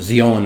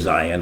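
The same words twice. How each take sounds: First: Zion is said in a non-Western, Hebrew-like way. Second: Zion is said in the familiar Western way. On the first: "would be the right way to pronounce it" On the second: "because it's so familiar to the Western world"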